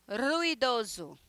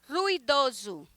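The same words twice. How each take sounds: Both takes have the same delivery.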